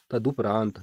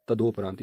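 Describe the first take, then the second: First: तदुपरांत with a short "du"; correct pronunciation. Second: तदोपरांत with "do" in the middle; wrong pronunciation. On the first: Teacher building the correct word, तदुपरांत with short u. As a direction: say तदुपरांत as "ta-du-praant". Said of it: "शब्द बन जाएगा". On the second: Teacher showing what to avoid, तदोपरांत with o. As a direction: say तदोपरांत as "ta-do-praant". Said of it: "यह अशुद्ध प्रयोग है". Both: Shown as a demonstration.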